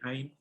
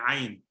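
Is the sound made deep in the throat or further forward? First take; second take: forward; throat. First: The sound is made lightly, further forward. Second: The sound is made strongly, deep in the throat. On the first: The speaker calls it wrong. "it's not going to be ain" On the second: The speaker calls it right. "it's going to be ain... like it's coming from the back of your throat"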